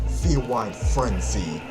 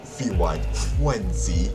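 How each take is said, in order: First: The L and R sounds are said normally. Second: The L and R sounds become W sounds.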